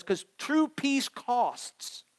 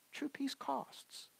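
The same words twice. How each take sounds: First: True peace costs, drawn out slowly and pressed hard; emphatic slow stress. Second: True peace costs, repeated much softer and slowly; soft slow echo. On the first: Preacher to congregation, slow weighty emphasis. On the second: Preacher echoing his point, soft and slow. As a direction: let "True peace costs" sink in quietly. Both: Acted.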